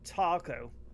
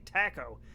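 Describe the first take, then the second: First: It is said with an American accent. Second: It is said with an English accent. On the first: The speaker calls it right. "they would pronounce it correctly" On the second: The speaker calls it wrong. "They motherfuckers say taco"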